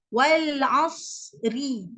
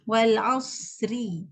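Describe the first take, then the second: First: Wal asri slow, ra carrying its vowel; original reading. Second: Wal asri slow, ending on a silent, thick ra; stopping on ra. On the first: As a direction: drawl wal asri slowly as in the original text. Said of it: "kalau kita ikut asalnya". (wal asri dibaca perlahan ikut asal) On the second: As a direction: read Wal asri and stop hard on the ra. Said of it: "bila kita wakaf je kat situ". (Wal asri diwakafkan, ra mati dan tebal) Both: Shown as a demonstration.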